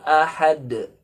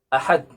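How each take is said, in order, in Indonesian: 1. Kata ini diucapkan dengan bunyi h dan d memantul. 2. Kata ini diucapkan dengan bunyi t. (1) "yang benar adalah dengan huruf ha dan dengan huruf dal kemudian diqalqalahkan" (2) "kalau dibaca dengan uh, huruf ta"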